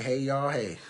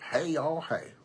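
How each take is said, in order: First: Said in the usual way. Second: Put-on playful Southern cowboy accent. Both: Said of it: "That sound like a cowboy".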